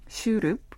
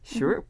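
First: The word has a Korean-style pronunciation. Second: The word has an American-style pronunciation. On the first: "the Korean pronunciation is shroop" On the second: "I like sort of doing it American or North American spin to it"

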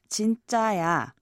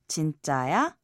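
First: The voice falls at the end. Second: The voice rises at the end.

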